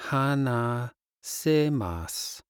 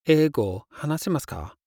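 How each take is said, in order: First: Slow. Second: Fast. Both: Shown as a demonstration. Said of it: "Do you speak English?".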